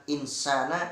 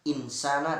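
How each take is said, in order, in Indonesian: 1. Bunyi n diucapkan jelas dan cepat. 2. Bunyi n diucapkan jelas dan cepat.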